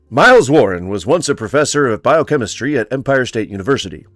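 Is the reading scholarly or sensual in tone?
scholarly. It is read in a dry, scholarly, bookish tone. The speaker calls it right. "maybe more of a scholarly, uh, bookish tone"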